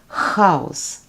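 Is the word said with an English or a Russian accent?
Russian. It is said with a strong Russian accent. "A person with a strong Russian accent would pronounce"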